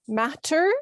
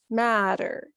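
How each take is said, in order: First: The middle consonant is a clear T. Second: The middle consonant sounds like a D.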